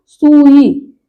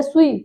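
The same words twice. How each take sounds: First: सुई drawn out as sūū-ī; long first vowel. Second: सुई with a quick su; short first vowel. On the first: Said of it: "बड़े ऊ की मात्रा". (सुई में ऊ खींचकर) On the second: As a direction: say सुई as su-ī, unstretched. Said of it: "ये पूछा जाता है". (सुई में छोटा उ) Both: Shown as a demonstration.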